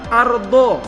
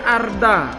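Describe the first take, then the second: First: The last syllable is heavy and dark, like do. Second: The last syllable is light and plain, like da. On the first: The speaker calls it right. "Bunyinya harus do" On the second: The speaker calls it wrong. "tidak boleh arda. Kalau arda menjadi huruf dal dia"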